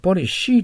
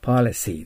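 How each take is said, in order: First: The middle consonant is an sh sound. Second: The middle consonant is an s sound. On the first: The speaker calls it wrong. "ポリシーと言ったらダメですよ。SH の発音になるでしょう。" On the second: The speaker calls it right. "背の口、あくまでも。"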